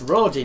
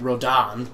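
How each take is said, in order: First: The second syllable sounds like 'din'. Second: The second syllable sounds like 'dan'. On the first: The speaker calls it right. "It's Rodin" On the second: The speaker calls it wrong. "everybody pronounces it Rodan, like there's an A when there isn't"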